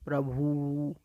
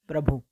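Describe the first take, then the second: First: The final u vowel is drawn out long. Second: The final u vowel is short. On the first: The speaker calls it wrong. "ज़्यादा देर तक ऊ को बोला जाता है" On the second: The speaker calls it right. "ऊ को ज़्यादा देर तक उच्चारण नहीं करना चाहिए। जैसे प्रभु"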